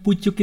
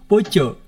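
First: It is said with u vowels and a final k. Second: It is said with o vowels and no final k. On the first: This is the standard way of saying it. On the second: This is how the locals say it.

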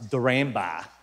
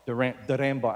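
First: The name is said with an Australian accent. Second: The name is said with a Filipino accent. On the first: The speaker calls it right. "How you say it in Australia" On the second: The speaker calls it wrong. "I said it Tagalog, it's not"

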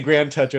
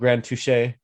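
First: The last word is read like English 'toucher'. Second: The last word is said like French 'touché'. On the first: It reads like a crude English joke. The speaker calls it wrong. "You could say Grand Toucher, and that's not a very good name" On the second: It is meant as a French term. The speaker calls it right. "instead of Grand Touche"

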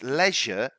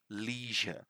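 First: It is said with a British pronunciation. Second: It is said with an American pronunciation. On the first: "leisure is the British pronunciation" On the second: "American pronunciation would be leisure"

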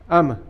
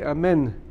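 First: The word ends before the final n sound. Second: The word ends with a full n sound. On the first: The speaker calls it wrong. "without the nun" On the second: The speaker calls it right. "You have to say amen"

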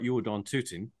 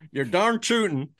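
First: It is said in a British accent. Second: It is said in an American accent. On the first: "I'm very British, aren't I?" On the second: "Do it with the American accent"

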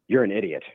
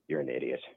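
First: It is said firmly and aggressively. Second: It is said mildly, without force.

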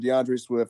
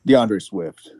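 First: The name is said fast. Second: The name is said slowly.

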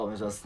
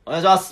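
First: It is said quietly and timidly. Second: It is said sharply, with irritation.

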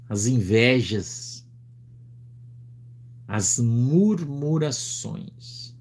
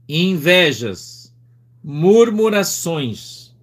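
First: It is read more slowly. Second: It is read rather fast.

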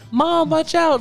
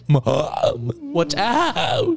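First: It is said in a smooth child's voice. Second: It is said in a cracking teenage voice.

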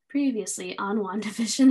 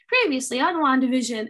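First: It is said in a sad, unenthusiastic tone. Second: It is said in a cheerful, enthusiastic tone.

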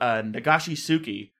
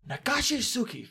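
First: It is said plainly, without a Japanese accent. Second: It is said with a put-on Japanese accent.

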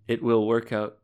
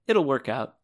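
First: It will is said as two full words. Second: It will is contracted into it'll. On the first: "if I said" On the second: "I'd say like this"

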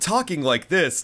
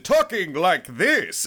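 First: It is said in Gohan's normal speaking voice. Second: It is said in Gohan's put-on Great Saiyaman voice.

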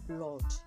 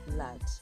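First: The vowel is a rounded 'o' sound. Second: The vowel is an open unrounded 'uh' sound.

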